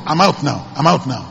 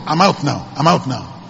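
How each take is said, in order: Both takes have the same delivery.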